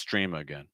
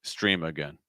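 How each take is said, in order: Both takes have the same delivery.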